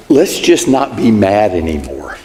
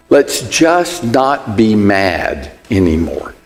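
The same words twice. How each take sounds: First: Evasive apology. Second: Evasive apology, slower. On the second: Spouse dodging the fight, slow coaxing plea. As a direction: stretch it out, let's just move on. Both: Retold or imitated. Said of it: "It goes something like this".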